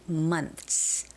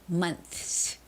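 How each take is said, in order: First: The th sound before the s is dropped. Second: The th sound before the s is pronounced. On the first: The speaker calls it right. "you don't necessarily have to make the T H pronunciation. So it can just be months" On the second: The speaker calls it wrong. "You don't have to go months, months. It's unnecessary"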